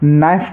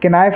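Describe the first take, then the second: First: The word starts directly with an n sound. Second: The word starts with a k sound before n. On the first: The speaker calls it right. "इसको हम नाइफ पढ़ेंगे" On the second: The speaker calls it wrong. "किनाइफ नहीं पढ़ना है"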